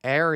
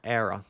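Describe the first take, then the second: First: Said in the usual way. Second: "error" with an attempted Irish accent; lightly put-on Irish "error". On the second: Shown as a demonstration. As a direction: try an Irish pronunciation of "error". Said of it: "the Irish accent you attempt to put on it".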